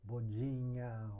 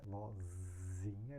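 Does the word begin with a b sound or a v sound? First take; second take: b sound; v sound. First: It starts with b and has a d sound. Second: It starts with v and has a z sound. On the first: This is how Japanese speakers pronounce it. "Eles falam bo, bodinha" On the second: This is the original Portuguese pronunciation. "Eles também não falam Z"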